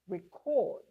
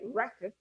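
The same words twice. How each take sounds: First: The stress is on the second syllable. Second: The stress is on the first syllable. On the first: It is used as a verb. "as a verb... the stress shifts to the second syllable" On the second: It is used as a noun. "that's a noun. The stress is on the first syllable"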